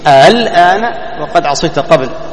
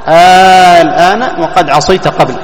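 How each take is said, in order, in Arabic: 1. الهمزة تُلان في المنتصف، ولا تُمدّ مدًّا كاملاً. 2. الهمزة تصير حرف مدّ طويلاً.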